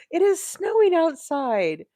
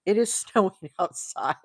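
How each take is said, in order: First: High astonished exclaim. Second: Said in the usual way. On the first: Real, not acted. Crocheter telling viewers about surprise snow, astonished high exclaim. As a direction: pitch jumps up, "snowing" stretched in disbelief. Repeating the shocking snow news.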